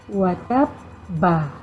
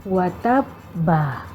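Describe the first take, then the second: The two takes are said the same way.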